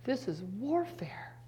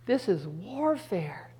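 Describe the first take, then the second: First: Quiet repeat. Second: Slow declaration. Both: Acted.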